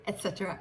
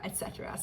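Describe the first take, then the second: First: Said in the usual way. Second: Trailing whispered et cetera; breathy whisper of et cetera; whispered echo. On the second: Shown as a demonstration. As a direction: repeat it in a whisper. Repeats phrase, second whispered.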